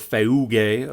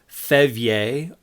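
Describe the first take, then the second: First: The middle has an eu vowel before a hard g. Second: The middle has a v sound before a soft ending. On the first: "according to the Erasmian pronunciation" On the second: "according to the modern Greek"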